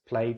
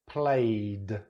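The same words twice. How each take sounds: First: The ending sound is soft and reduced. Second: The ending sound is loud and emphasized. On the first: "I'm going to say it naturally" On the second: "Now I'll exaggerate it"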